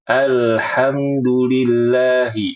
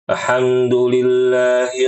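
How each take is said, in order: First: The opening 'al' is pronounced clearly and fully. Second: The opening 'al' is blurred and hard to hear. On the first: The speaker calls it right. "Yang benar adalah" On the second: The speaker calls it wrong. "alnya nggak jelas. Terdengar seperti ini"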